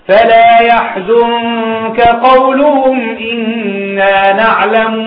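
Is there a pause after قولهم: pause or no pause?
no pause. قولهم runs straight into إنا without pause. The knowing is presented as their own words. The speaker calls it wrong.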